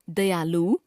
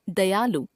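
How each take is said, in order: First: दयालु ending on long "loo"; mispronounced final vowel. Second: Said in the usual way. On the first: Shown as a demonstration. Teacher showing a common error, दयालु with long final u. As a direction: stretch the last vowel of दयालु. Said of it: "अशुद्ध". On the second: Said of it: "शुद्ध".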